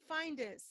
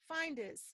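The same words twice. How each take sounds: Both takes have the same delivery.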